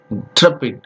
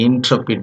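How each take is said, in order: First: "intrepid" as n-TREP-id, IN barely there; English pronunciation, swallowed first syllable. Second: "intrepid" with a full, clear first syllable IN; local pronunciation. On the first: Teacher showing how English people say it, first syllable swallowed. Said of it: "first syllable is swallowed". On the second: Teacher showing how we say it, first syllable fully voiced. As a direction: give IN its full sound in "intrepid". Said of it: "but we say intrepid". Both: Shown as a demonstration.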